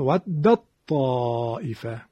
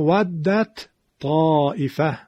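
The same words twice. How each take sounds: First: The d is merged into the following t. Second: The d is pronounced separately before the t.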